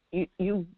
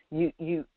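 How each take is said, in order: Both takes have the same delivery.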